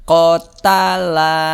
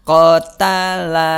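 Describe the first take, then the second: Both takes have the same delivery.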